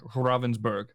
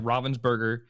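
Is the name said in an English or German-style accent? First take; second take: German; English. First: The name is said with a German-style pronunciation. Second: The name is said with an English-style pronunciation. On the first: This tries to sound like the original German. "if you want to try to sound German" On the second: This is how most people say it. "most of the content creators say"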